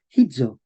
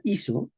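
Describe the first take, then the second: First: Hizo as HI-dzo with an audible h; medieval pronunciation. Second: Said in the usual way. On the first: Shown as a demonstration. Teacher contrasting sound with spelling, medieval pronunciation. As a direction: breathe the h and buzz the z in hizo. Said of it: "pero se decía hizo". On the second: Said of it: "se escribía de esta manera".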